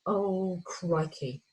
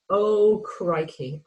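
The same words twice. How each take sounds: First: Quiet slow crikey. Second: Louder slow crikey. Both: Retold or imitated. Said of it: "that excitement of going".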